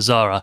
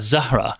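First: The name is said with an English pronunciation. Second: The name is said with an Arabic pronunciation. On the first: The name is adapted to English speakers. "anglicize herself to Zahra" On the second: The name is said faithfully to its origin. "more sort of accurately Arabic will call her Zahra"

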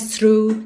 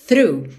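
First: The word begins with an s sound. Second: The word begins with a th sound. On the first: The speaker calls it wrong. "Não é S, não é through" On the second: The speaker calls it right. "é through"

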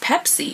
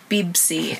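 First: The word is said with p sounds. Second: The word is said with b sounds. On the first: "in English, it's Pepsi" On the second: "even the Kurds would pronounce it Bibsi"

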